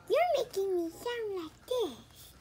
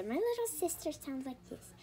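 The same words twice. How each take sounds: First: Slow, higher mock baby voice. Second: Said in the usual way. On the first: Mocking her little sister's voice, slow baby voice. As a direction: mimic a little kid's baby voice, slowly. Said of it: "I don't sound like a baby". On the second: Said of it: "this is me talking, not my little sister".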